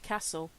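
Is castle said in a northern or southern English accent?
northern. It is said in a northern English accent. "I'm half northerner. That's why I say castle"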